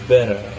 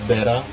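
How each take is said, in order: First: It is said in an American accent. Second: It is said in an Australian accent. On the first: "pronunciada assim por americanos" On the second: "por australianos"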